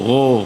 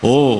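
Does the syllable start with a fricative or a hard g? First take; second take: fricative; fricative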